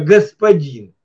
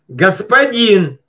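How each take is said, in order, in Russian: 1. Слово произносится просто, нейтрально. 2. Слово произносится строго, повелительно. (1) "это я сейчас просто так сказал" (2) "Она вот так звучала"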